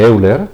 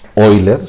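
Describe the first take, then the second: First: The name starts with an 'eh-oo' sound. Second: The name starts with an 'oy' sound.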